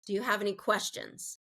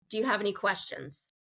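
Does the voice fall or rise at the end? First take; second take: fall; fall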